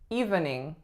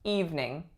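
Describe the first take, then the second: First: Every syllable is fully pronounced. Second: The middle syllable is dropped. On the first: "this one may look like it is evening" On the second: "we take out that middle syllable and we say evening"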